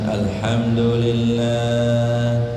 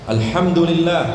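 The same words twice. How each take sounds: First: It is said slowly and limply, without energy. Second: It is said with loud, lively energy. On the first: The speaker calls it wrong. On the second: The speaker calls it right. "nah gitu semangat"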